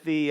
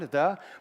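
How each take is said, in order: First: The vowel is a long 'ee' sound. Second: The vowel is a short 'uh' sound. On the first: "like a British person, like an ee sound" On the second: "with a uh sound"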